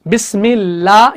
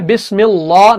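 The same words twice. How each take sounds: First: The L in Allah is light and thin. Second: The L in Allah is heavy and full. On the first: The speaker calls it right. "ये सही है" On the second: The speaker calls it wrong. "नहीं आएगा"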